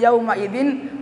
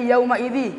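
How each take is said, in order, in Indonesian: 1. Kata kedua berakhir dengan bunyi n yang jelas. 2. Kata kedua berakhir tanpa bunyi n sama sekali. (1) "Yang tadi yauma idzin" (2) "karena dikurangi satu barisnya"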